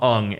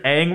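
First: The name is said like 'Ung'. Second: The name is said like 'Aang'. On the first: This is the film's changed pronunciation. The speaker calls it wrong. "We're going to call him Ung instead" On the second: This is the original cartoon's pronunciation. The speaker calls it right. "The main character is Aang"

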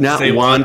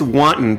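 First: It is said like the soup 'wonton'. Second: It is not said like the soup 'wonton'. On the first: The speaker calls it wrong. "not wanton destruction" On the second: The speaker calls it right. "It's wanton destruction"

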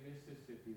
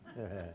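First: It is said in a careful, outsider way. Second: It is said the way locals say it.

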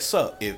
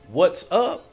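First: The greeting is clipped, with no W sound. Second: The greeting is said in full, with the W. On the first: The speaker is on the same team. The speaker calls it right. "That's that sup" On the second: The speaker is not on the same team. The speaker calls it wrong. "you hit me and pronounce the W"

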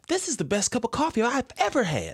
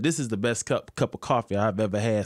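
First: It is said in an assumed, altered voice. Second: It is said in the speaker's ordinary voice. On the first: "So now I'll be like" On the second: "instead of saying, like I said"

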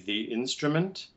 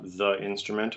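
First: The article is said as 'thee'. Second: The article is said as 'thuh'. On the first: The speaker calls it right. "it should definitely be the before a vowel for the definite article" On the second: The speaker calls it wrong. "not the instrument"

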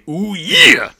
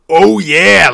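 First: The yeah is drawn inward as if sucked in. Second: The yeah is pushed outward like a loud burst. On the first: The speaker calls it right. "You bring it in, yeah. Like you're trying to fucking suck that thing into your fucking heart" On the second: The speaker calls it wrong. "like the fucking Kool-Aid Man"

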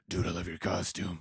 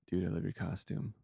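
First: It is said in a loud, tough voice. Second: It is said in a very faint, weak voice. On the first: The man seems intimidating. "you think he's going to be like" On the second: The man was even more timid. "He was even wimpier than that"

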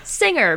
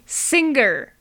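First: The word is said in a standard pronunciation. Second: The word is said in an odd regional pronunciation. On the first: "Which most people would pronounce as singer" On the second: "that particular bizarre regional accent takes over"

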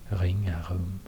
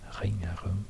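First: The r sound is made deep in the throat. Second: The same.

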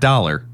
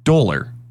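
First: The word is said in a general American accent. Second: The word is said in a Philadelphia accent. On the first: "instead of dollar" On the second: "my sister-in-law says dollar"

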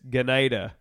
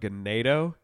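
First: The name ends with an 'uh' vowel. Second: The name ends with an 'oh' vowel. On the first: The speaker calls it right. "They corrected us when we were there" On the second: The speaker calls it wrong. "I'm saying it wrong"

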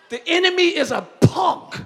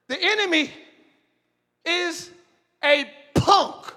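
First: It is said in a street, neighborhood-style voice. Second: It is said in a plain, formal preaching voice.

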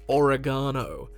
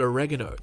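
First: It is said the Australian way. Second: It is said the American way. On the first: The speaker calls it wrong. "than oregano does not sound correct" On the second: The speaker calls it right. "it makes more sense to call it oregano"

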